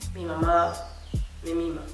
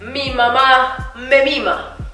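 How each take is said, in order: First: It is said in a low, subdued, somber way. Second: It is said in a declaiming, speech-making way. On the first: The speaker is offering condolences. "Si yo estuviera dando el pésame a alguien, mi cuerpo se iría hacia abajo" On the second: The speaker is campaigning for votes. "Si yo fuera un candidato político diría"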